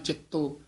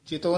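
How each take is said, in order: First: The middle consonant is doubled and held. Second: The middle consonant is short. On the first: The speaker calls it right. "ਇਸੇ ਤਰ੍ਹਾਂ ਚਿੱਤੋ" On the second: The speaker calls it wrong. "ਚਿਤੋ ਨਹੀਂ ਕਹਿਣਾ"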